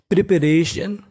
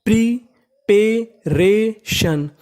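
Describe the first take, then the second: First: Said in the usual way. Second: प्रीपेरेशन very slowly, pausing between each syllable; प्रीपेरेशन broken into four drawn-out syllables. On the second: Shown as a demonstration. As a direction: sound out प्रीपेरेशन as pree, pay, ray, shun. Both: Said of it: "तो meaning बनी".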